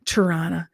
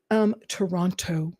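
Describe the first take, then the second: First: "Toronto" said the local way, with the second t dropped: tuh-RAH-nuh. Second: "Toronto" said more fully, with the second t kept: tuh-RAHN-toe; careful Toronto. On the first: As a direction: clip "Toronto" down to two quick syllables. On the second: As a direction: spell out every syllable of "Toronto". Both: Shown as a demonstration. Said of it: "I'm saying it for my American viewers".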